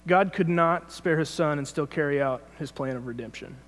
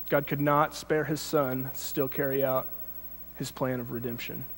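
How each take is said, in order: First: Said in the usual way. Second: Slowed right down, phrase by phrase; slow, deliberate reread. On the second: Shown as a demonstration. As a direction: read it again slowly with pauses.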